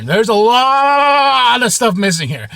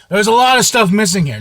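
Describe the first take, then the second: First: Slower and higher, drawn out in disbelief; dismayed repeat. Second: Said in the usual way. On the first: Retold or imitated. Reliving finding his comic boxes short, slow disbelief. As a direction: stretch it out, stunned.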